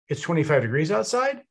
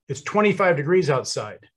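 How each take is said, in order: First: The pitch rises at the end. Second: The pitch falls at the end. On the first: It is asked as a question or voiced with doubt. "your inflection comes up at the end. So I'm going to say the same exact thing" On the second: It is stated as a fact. "Statement of fact. My inflection goes down at the end"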